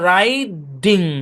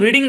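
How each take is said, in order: First: The first vowel is an 'eye' sound. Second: The first vowel is a short 'i' sound. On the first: The speaker calls it right. "মূল ভার্বের উচ্চারণ হচ্ছে রাইডিং" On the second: The speaker calls it wrong. "নিয়ম অনুসারে কিন্তু রিডিং দেখা যায়, কিন্তু নিয়ম অনুসারে বললে হবে না"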